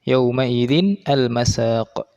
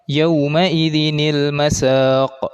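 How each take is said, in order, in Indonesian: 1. Kata-katanya diucapkan terpisah, tanpa bunyi penyambung. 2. Bunyi penyambung 'nil' menyatukan kata-katanya. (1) "pada tulisan yang tertera di dalam Al-Qur'an itu" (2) "dibacanya menyambung"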